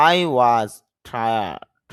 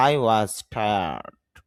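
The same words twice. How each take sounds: First: Tired with the r sounded, very slow; rhotic tired. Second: British tired with no r, very slow; British accent. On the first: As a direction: say tired with a clear r. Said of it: "যদি এখানে র উচ্চারণ করি". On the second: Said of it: "British অ্যাকসেন্টে র উচ্চারণ না করলেই হয়". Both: Shown as a demonstration.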